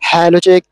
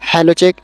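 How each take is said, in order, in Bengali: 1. Background noise জোরালোভাবে filter করে বাদ দেওয়া হয়। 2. ব্যাকগ্রাউন্ড নয়েজ শুধু হালকাভাবে ফিল্টার করা হয়। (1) "এটা হচ্ছে নয়েজ ক্যান্সেলেশন লেভেল তিন।" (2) "এটা হচ্ছে এক নম্বর নয়েজ ক্যান্সেলেশন লেভেল।"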